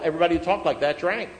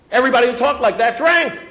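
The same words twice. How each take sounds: First: Said in the usual way. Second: Much louder, high-pitched hammering repeat; emphatic shout. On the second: Real, not acted. Speaker warning fellow alcoholics who drank, emphatic shout. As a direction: shout the point home to the room.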